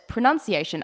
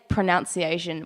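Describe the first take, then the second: First: The second syllable sounds like nun. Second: The second syllable sounds like noun. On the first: The speaker calls it right. "there was no O U, it's just you" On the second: The speaker calls it wrong. "I used to say pronunciation"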